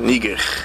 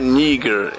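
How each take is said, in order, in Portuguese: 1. O R final é um R gutural alemão. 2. O R final não é um R gutural alemão. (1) "com R alemão no final" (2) "Não é Níger"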